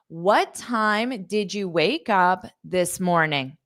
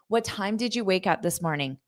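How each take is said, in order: First: The question is spoken slowly. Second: The question is spoken at natural speed. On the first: "That's slow" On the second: "at a natural pace that I would ask my friends"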